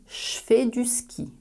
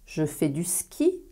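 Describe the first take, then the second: First: The word je sounds like che. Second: The word je keeps its voiced j sound.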